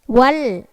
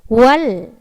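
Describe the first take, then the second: The two takes are said the same way.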